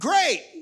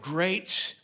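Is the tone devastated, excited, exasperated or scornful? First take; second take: excited; devastated. First: It is said with delighted, enthusiastic excitement. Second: It is said with bitter, devastated despair. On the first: The thing is wonderful. "oh my gosh, that's fantastic" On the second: Everything has been ruined. "which means you've ruined my life"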